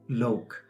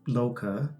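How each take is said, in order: First: The word ends on the consonant sound. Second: The word ends with a final vowel sound. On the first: The speaker calls it right. "he's using the word yo lok" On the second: The speaker calls it wrong. "I know the word as loka, but I'm probably wrong in my pronunciation"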